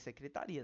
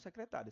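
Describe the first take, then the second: First: The syllable 'ri' carries the stress. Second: The syllable 'ri' is not stressed. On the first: "esse I... tá com pronúncia forte" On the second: "Se fosse secretária, tinha um acento aqui e essa sílaba seria junta"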